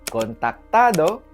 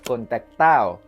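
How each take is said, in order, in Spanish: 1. La d entre las últimas vocales se pronuncia. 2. La d entre las últimas vocales se elimina.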